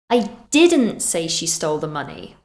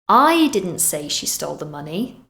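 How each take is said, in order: First: The stress falls on the word didn't. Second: The stress falls on the word I. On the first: The speaker denies saying it. "We're emphasizing that this is not something we did" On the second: Someone else said it. "meaning maybe someone else did"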